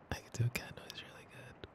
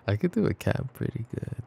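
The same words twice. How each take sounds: First: Quick unvoiced whisper of a boast; fast whisper. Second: Said in the usual way. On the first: Girlfriend bragging to her partner about cat noises, fast whisper. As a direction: rush it out as a secret brag.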